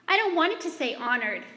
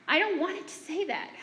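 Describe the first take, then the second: First: Higher, louder whiny protest, "I" leaned on; mother mimicking her daughter's meltdown over "honored"; upset child. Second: Higher whine leaning on "don't"; mother mimicking her daughter's repeated complaint; upset child. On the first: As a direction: whine like a frustrated kid who hates the word. Child melting down over word. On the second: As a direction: plead like a miserable kid. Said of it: "Over and over, she said".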